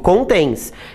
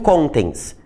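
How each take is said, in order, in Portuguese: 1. A tônica está na segunda sílaba. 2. A tônica está na primeira sílaba. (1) "Eu digo contens. Então a sílaba tônica é o tens" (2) "eu não digo contens"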